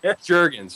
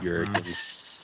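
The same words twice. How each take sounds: First: The name begins with a hard J sound. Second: The name begins with a soft J sound. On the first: The speaker calls it right. "he's like" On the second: The speaker calls it wrong. "I see a J, and it's a soft J"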